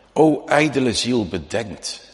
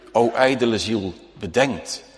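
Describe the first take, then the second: No difference in how they are said.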